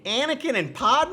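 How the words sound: It is said as an exaggerated imitated accent. "as Isabella would say in imitating me"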